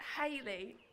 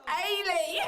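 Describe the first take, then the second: First: The h at the start is clearly pronounced. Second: The h at the start is dropped. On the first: The speaker calls it right. "we'll be going out as Hayley" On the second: The speaker calls it wrong. "not Ailey"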